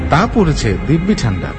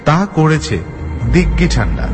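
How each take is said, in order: First: The lip consonants are pronounced with closed lips. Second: The lip consonants are swapped for back-of-mouth sounds. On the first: "কথোপকথন যদি হয় এরকম" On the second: "তাহলে সেটা বলতে হবে এইভাবে"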